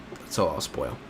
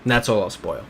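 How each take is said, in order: First: A quiet, lower teasing echo of the line; low hushed repeat. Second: Said in the usual way. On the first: Shown as a demonstration. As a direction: drop the voice low and soft for the repeat.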